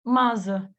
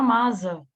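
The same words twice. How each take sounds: First: The middle consonant is a buzzing z sound. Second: The middle consonant is a buzzing z sound.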